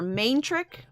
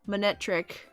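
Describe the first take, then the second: First: The first syllable sounds like 'main'. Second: The first syllable sounds like 'mon'. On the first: This is how someone else says the name. "I always pronounce it main trick" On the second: This is how the speaker himself says the name. "Monetric is how I say it"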